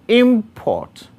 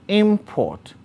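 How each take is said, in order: Both takes have the same delivery.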